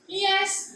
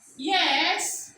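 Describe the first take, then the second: First: The pitch stays level on the word. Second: The pitch falls and then rises. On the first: "for the level tone is yes" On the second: "Under the four right tone is yes"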